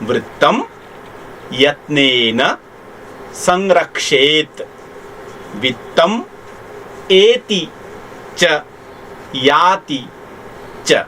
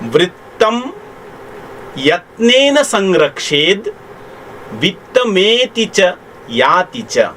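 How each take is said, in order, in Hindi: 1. हर शब्द अपने रूप में अलग-अलग बोला जाता है। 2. शब्द ध्वनि-परिवर्तन के साथ आपस में जुड़कर बोले जाते हैं।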